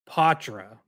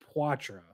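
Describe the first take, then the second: First: The name is said only partly French. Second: The name is said fully French. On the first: This is how the player says his own name. The speaker calls it right. "French-ish, but not the full French" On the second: This is how others had been saying the name. The speaker calls it wrong. "not Poitra"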